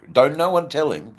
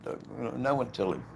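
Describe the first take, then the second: First: High, loud mock warning; loud, high-pitched playful plea. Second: High but softer mock warning; softer, high-pitched playful plea. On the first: Jokingly warns others to keep secret. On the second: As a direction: repeat the playful warning more quietly, still pitched up. Repeats the joking warning.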